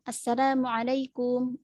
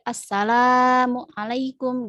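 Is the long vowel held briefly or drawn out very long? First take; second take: briefly; drawn out. First: The long vowel is held only briefly. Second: The long vowel is stretched out very long. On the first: The speaker calls it right. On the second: The speaker calls it wrong.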